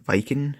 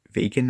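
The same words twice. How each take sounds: First: Viken said with a short i, pitched up; the misreading Viken, tried out quizzically; wrong try. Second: Vaken said as VAY-ken, pitched up; landing on Vaken, tentatively; settled try. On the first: Reviewer guessing at the alien name on his first try. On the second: Reviewer settling on how to say the alien name. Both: Shown as a demonstration. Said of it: "Vaken, I think".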